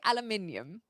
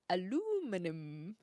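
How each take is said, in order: First: It is said with five syllables, British style. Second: It is said with four syllables, American style. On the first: "And I think that's British English" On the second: "the Americans say aluminum"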